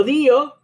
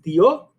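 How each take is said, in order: First: "dio" broken into DEE-o, stress on the i; split dío. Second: "dio" as one syllable, stress on the o. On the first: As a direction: raise the pitch and split "dio" as DÍ-o. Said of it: "no puedo dividirla en dos sílabas". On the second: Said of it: "estas dos me forman un diptongo". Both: Shown as a demonstration.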